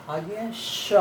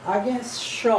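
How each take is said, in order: Both takes have the same delivery.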